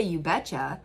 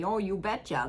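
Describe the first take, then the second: First: Said in the usual way. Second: Mock the upper Midwest "Oh, you betcha" the way everyone jokes about it; a hammed-up Minnesota "Oh, you betcha", a little higher; joking Minnesota accent. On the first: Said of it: "we say". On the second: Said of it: "the way, like, everyone jokes around about it".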